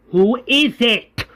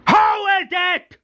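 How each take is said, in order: First: Slow, high-pitched demand; menacing question. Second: Very high-pitched acted shout; furious shout. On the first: Retold or imitated. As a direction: draw the question out as a threat. Governor demands the culprit, first take. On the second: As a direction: explode into a screamed demand. Governor demands the culprit, now shouting.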